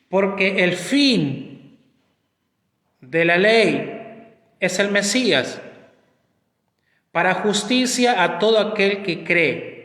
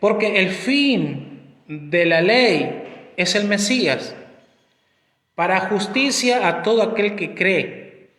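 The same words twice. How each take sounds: First: It is read more slowly. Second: It is read at normal speed.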